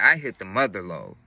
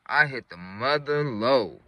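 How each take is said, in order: First: Said in the usual way. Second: Slow, savored repeat; drawn-out emphasis. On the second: Real, not acted. Storyteller repeating his big find, slowly for emphasis. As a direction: stretch it out to let it land.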